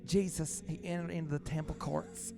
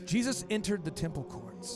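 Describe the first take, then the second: First: It is read in a soft, effeminate tone. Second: It is read in a plain, forceful tone.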